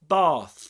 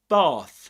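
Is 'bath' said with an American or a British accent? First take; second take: British; British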